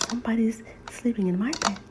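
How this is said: It is said in a small, squeaky voice.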